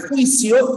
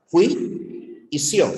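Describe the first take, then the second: First: Said in the usual way. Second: "jui y sio" slowly, in two separate pieces; split into syllables. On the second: Shown as a demonstration. Teacher showing that juicio has two syllables, split syllables. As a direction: break "jui y sio" with a clear pause between syllables. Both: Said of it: "tienes dos sílabas".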